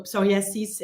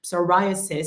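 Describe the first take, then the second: First: Psoriasis said the French way, pso-ri-e-SIS, with no "eye" sound; French pronunciation. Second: Psoriasis the English way, so-RYE-a-sis, stressed on "RYE"; English pronunciation. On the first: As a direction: say psoriasis as so-ri-ay-ZEES, evenly weighted, with the stress at the end. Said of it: "is how we say it in French". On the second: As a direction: say psoriasis with a long "eye" on the second syllable. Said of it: "not where we put the accent in French". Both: Shown as a demonstration.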